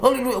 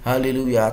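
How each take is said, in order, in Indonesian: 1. Kata itu diucapkan makin cepat lagi. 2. Kata itu diucapkan dengan lambat. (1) "Tambah cepat" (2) "gerakkan pelan-pelan sambil berkata haleluya"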